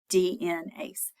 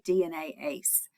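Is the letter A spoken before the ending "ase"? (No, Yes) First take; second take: No; Yes. First: The letter A is dropped before the ending. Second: The letter A is spoken before the ending. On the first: The speaker calls it wrong. "instead of D N ACE" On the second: The speaker calls it right. "we should say D N A ACE"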